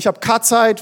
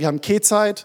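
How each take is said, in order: First: It is said with a Middle Franconian 'a' vowel. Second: It is said with a Lower Franconian 'e' vowel.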